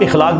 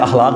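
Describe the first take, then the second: First: The word begins with an 'i' sound. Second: The word begins with an 'a' sound. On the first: The speaker calls it wrong. "लोग इखलाक बोलते हैं" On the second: The speaker calls it right. "अखलाक होता है लफ्ज"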